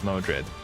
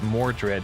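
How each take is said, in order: First: No r sound follows the first vowel. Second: An r sound follows the first vowel. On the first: The speaker calls it wrong. "not Modred" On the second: The speaker calls it right. "I need to re relearn that it's Mordred"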